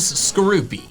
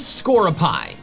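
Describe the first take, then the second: First: The name ends with an 'ee' sound. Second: The name ends with a long 'eye' sound. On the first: The speaker calls it right. "the I in scorpion makes the E sound" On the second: The speaker calls it wrong. "my original pronunciation by listing words that end in I that make the long I sound"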